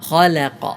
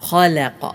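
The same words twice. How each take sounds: Both takes have the same delivery.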